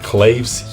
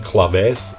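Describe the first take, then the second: First: The word is said with an English-style pronunciation. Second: The word is said with a Latin-style pronunciation. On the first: The speaker calls it wrong. "I kept saying claves" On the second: The speaker calls it right. "it is a Latin word, so um, we will be saying claves from now on"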